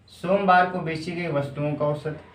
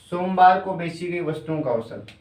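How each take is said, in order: Both takes have the same delivery.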